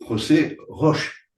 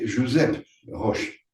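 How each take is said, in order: First: The name is said with a Castilian Spanish pronunciation. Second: The name is said with a Catalan pronunciation. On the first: "en castellano" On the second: "en catalan, on dirait"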